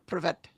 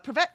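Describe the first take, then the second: First: It is said in a deeper voice. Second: It is said in a normal-pitched voice.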